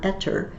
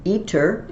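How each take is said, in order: First: "eter" said with an open e: EH-ter; short "e" sound. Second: "iter" said with a long "ee": EE-ter; stressed long "ee" sound. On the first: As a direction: say "eter" starting on eh, not ee. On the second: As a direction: say "iter" starting on a clear ee vowel. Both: Shown as a demonstration. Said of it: "it's not eter".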